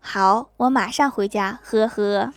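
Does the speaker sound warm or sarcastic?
sarcastic. It sounds cold and sarcastic, with a dry laugh.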